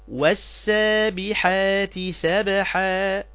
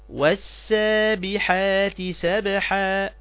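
The two takes are said the same way.

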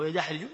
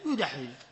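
First: The first vowel is an open 'a' sound. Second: The first vowel is a rounded 'u' sound. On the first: The speaker calls it wrong. "ما تقول يدحرج" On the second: The speaker calls it right. "فدائما في الرباعي تضم حركة المضارع"

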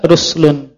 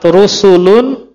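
First: No vowel is heard between the s and l. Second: A vowel is heard between the s and l. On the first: "boleh dibaca ruslun" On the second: "Sama seperti kalimat rusulun"

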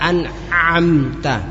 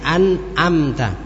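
First: The ain is strained and overdone in the throat. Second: The ain is weakened into a simple glottal stop. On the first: "Tidak usah an'amta" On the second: "Akan berubah menjadi huruf apa? Hamzah"

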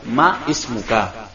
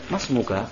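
First: The initial vowel of the second word is pronounced. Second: The words run together without the initial vowel. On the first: "Itu kan aslinya" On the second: "Tapi kita baca langsung itu. Ya, hamzah wasolnya dilepaskan"

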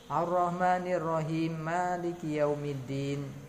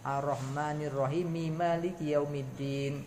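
First: No vowel follows the m of Rahim. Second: A vowel follows the m of Rahim. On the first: The speaker calls it wrong. "itu telah membuang harokat mim pada Ar-Rahimi" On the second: The speaker calls it right. "Harokat mimnya dibaca"

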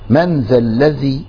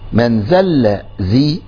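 First: The words are read as 'man dha alladhi'. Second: The words are re-cut as 'man dhal dhi'. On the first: Asks who may intercede with God. The speaker calls it right. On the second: Whoever humbles himself will intercede. The speaker calls it wrong.

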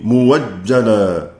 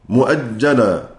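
First: A plain w sound follows the first vowel. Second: A glottal stop follows the first vowel. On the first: "فورش كذلك يبدل هذه الهمزة واوا" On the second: "الواو المفتوحة بعد ضم نحو كلمة مؤجل"

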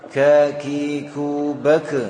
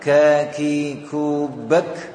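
First: The final k is released with an echoing bounce. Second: The final k is released with a flow of breath. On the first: The speaker calls it wrong. "Tidak diucapkan seperti mengucapkan kol-kola seperti ini" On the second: The speaker calls it right. "Yang menunjukkan nafasnya mengalir adalah diucapkan setelah"

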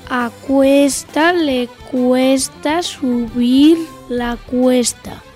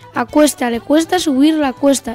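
First: It is said at a slow speed. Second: It is said at a medium speed. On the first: "Primera velocidad" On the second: "Vamos con la velocidad media"

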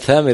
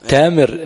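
First: The name starts with a th sound. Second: The name starts with a plain t sound. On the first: This is the standard way to say it. "بدل ثامر" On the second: This is how some local speakers say it. "الثاء تاء تامر"

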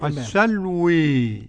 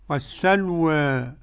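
First: The final vowel leans strongly toward e. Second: The final vowel leans slightly toward e. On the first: "بالإمالة" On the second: "قرأ بالفتح والتقليل ورش"

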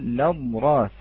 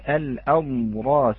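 First: The word begins directly with an L sound. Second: The word begins with a glottal stop before the vowel. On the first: The speaker calls it right. "تلفظ بارك الله فيكم باللام" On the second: The speaker calls it wrong. "لا نقول الأضراس"

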